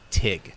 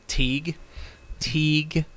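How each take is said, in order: First: The vowel is a short 'i' sound. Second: The vowel is a long 'ee' sound. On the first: The speaker calls it right. "it's Tig" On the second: The speaker calls it wrong. "I've been pronouncing it Teague"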